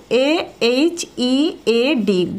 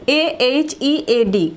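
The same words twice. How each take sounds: First: Letters "A H E A D" read one by one; slow spelling. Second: Letters "A H E A D" at an easier pace; spelling. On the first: (ধীরে বানান "A H E A D") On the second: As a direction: spell "A H E A D" again, a bit quicker. (বানান "A H E A D") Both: Shown as a demonstration. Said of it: "বলে ফেলো".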